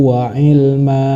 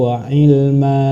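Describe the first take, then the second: No difference in how they are said.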